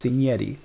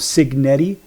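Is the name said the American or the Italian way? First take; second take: Italian; American. First: The name is said the Italian way. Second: The name is said the American way.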